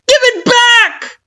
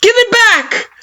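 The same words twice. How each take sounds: First: Very high, loud, slow demand breaking into a cry; plead-scream it through tears. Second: Very high, loud demand, falling on it; defiant scream. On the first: You begging Kara for the menu, crying scream. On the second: You demanding the menu from Kara, defiant scream. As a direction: scream it at her. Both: Acted. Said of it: "you scream, defiant".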